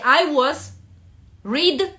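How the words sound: Short pauses separate the words into chunks. The speaker calls it right. "Вот соблюдайте эти паузы, которые я делаю устно"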